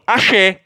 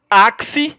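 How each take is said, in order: First: "axé" said ah-SHEH. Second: "axe" said slowly as AK-see. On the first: Teacher contrasting it with the other word, "axé" pronounced ah-SHEH. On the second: Teacher warning not to confuse two words, "axe" pronounced AK-see. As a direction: sound both K and S in "axe", stress first syllable. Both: Shown as a demonstration. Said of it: "a pronúncia é diferente".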